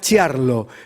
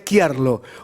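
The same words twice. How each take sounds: First: The name is given a Spanish-style pronunciation. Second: The name is given an Italian-style pronunciation. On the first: "salvo que se diga Chiarlo" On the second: "pero en italiano sería Chiarlo"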